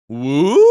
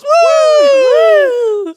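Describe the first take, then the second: First: Questioning woo with rising end; a small, unsure imitation cheer; tentative woo. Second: Very high, loud sustained whoop; crowd woo. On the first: Co-captain who speaks no English, uncertain questioning woo. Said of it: "And she just goes". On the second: Retold or imitated. Everybody in the background joins in, high loud woo. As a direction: imitate a whole crowd cheering. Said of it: "everybody in the background goes".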